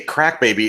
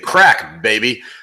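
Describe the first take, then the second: First: The two words run together as one name. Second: The words are split with an excited break. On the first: It names a baby born to a crack user. "it sounds like it's a crack baby" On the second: Someone is cheering about crack. "it just sounds like someone's very enthusiastic about crack"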